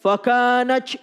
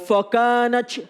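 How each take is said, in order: Both takes have the same delivery.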